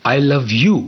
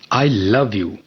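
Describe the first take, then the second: First: The stress is on the word you. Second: The stress is on the word love. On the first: This person is loved, not someone else. "not him or her" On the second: The feeling is love, not hate. "I don't hate you"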